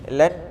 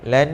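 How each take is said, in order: First: The n sounds blocked with the nose closed. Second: The n hums freely through the nose. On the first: The speaker calls it wrong. "kalau kita tutup tak jadi" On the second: The speaker calls it right. "Dia mesti di hidung, kita akan rasa"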